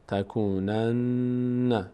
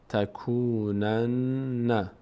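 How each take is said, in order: Both takes have the same delivery.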